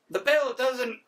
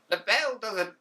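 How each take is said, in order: First: High, botched first try at a stern English teacher; a failed stab at the teacher voice; a weak first attempt at a strict teacher; bad teacher voice. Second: A stern English teacher, pitched a bit higher; an old school English teacher scolding pupils; better teacher voice. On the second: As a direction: play the strict old English teacher properly. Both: Shown as a demonstration. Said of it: "gonna do a better English, uh, English teacher voice".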